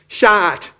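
It is said in a Jamaican accent. "If you're Jamaican"

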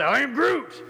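It is said in an angry tone.

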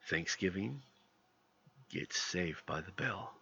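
It is said in a dark voice.

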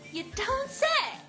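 It sounds genuinely surprised and amazed. The news is truly unexpected. "可以用来表示惊讶"

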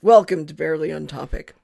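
It is said in a serious tone.

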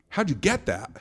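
It sounds pleased and congratulatory.

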